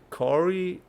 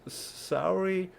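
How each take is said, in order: First: The name begins with a hard K sound. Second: The name begins with a soft S sound. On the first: It sounds like a man's name. "unless you go with a hard C" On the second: It sounds like the word sorry. "that's how I pronounce this A U sound"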